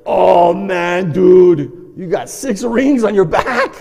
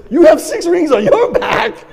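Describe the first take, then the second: First: Loud, drawn-out amazement; shocked exclamation. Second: Very loud, high, slow disbelief; horrified shriek. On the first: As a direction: blurt it out loudly to a brother. Shocked at brother's cupping marks. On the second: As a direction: shout it back, much higher, appalled. Brother shrieks back the same news. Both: Retold or imitated.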